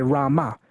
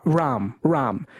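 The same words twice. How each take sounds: First: "Rama" in two syllables, final uh kept; southern Indian pronunciation. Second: "ram" as one syllable, no final vowel; northern Indian pronunciation. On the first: Host showing kept schwas, Rama as said in south India. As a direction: add a schwa after the m in "Rama". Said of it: "if in the south, they say". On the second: Host showing deleted schwas, ram as said in north India. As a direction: end "ram" right on the m. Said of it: "north of India, they say". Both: Shown as a demonstration.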